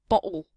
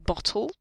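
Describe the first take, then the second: First: The middle t becomes a glottal stop. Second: The middle t is fully pronounced. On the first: "vous pouvez dire bottle" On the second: "au lieu de dire bottle, plutôt britannique euh, standard"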